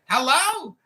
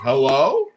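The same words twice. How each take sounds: First: It is said quickly in a very high pitch. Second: It is said in a calm, polite, ordinary pitch. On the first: The speaker calls it right. "you gotta say it higher pitch and you gotta say it quicker" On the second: The speaker calls it wrong. "you're still saying it too polite. You're saying you're saying it like this"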